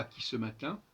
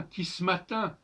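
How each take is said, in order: First: "qui ce matin" with a full schwa in ce; e of "ce" sounded. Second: "qui ce matin" with ce cut to s: kis-matin; elided e in "ce". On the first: Teacher shows the reading to avoid, "ce" in "qui ce matin" fully sounded. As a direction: sound all syllables, qui-seu-ma-tin, in "qui ce matin". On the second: Teacher corrects Ronsard's line, "qui ce matin" said as kis-matin. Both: Shown as a demonstration. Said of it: "et pas qui ce matin".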